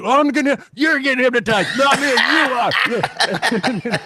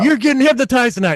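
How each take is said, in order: First: High, slow, laughing denial; nervous audience guy. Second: High, eager crowd chatter; excited crowd. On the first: Audience member dodging hypnosis, high and giggly. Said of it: "And the guy's like". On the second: Audience buzzing before the show, high and excited. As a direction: mimic thrilled audience members, pitched up. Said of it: "They're like". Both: Retold or imitated.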